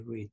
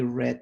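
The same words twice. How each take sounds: First: The vowel is long, rhyming with heed. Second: The vowel is short, rhyming with head. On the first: It happens regularly, in the present. "the read rhymes with heed" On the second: It happened in the past. "that rhymes with head"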